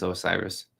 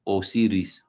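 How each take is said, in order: First: Osiris said English-style, oh-SY-rus; English-sounding Osiris, oh-SY-rus; English pronunciation. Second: Osiris said Spanish-style, oh-SEE-rees; Spanish-sounding Osiris, oh-SEE-rees; Spanish pronunciation. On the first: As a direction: say Osiris with a long i, as in sigh. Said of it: "I think it's Osiris". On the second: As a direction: say Osiris with an ee and a tapped r. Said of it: "How do you say that in, in Spanish". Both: Shown as a demonstration.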